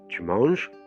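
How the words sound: It is said with the tune of a question. Are you eating? "j'ai changé le ton et ça devient une question"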